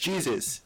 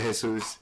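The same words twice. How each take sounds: First: The name is said with an American pronunciation. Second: The name is said with a non-American pronunciation. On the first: This is how Americans say the name. "if I went to to an American, they would be like, hey, it's Jesus" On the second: This is how the name's owner says it. "I pronounce it Jesus"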